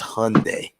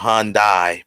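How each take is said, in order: First: The ending rhymes with Sunday. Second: The ending does not rhyme with Sunday. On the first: The speaker calls it right. "It's Hyundai, like Sunday" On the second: The speaker calls it wrong. "It's not Hyundai"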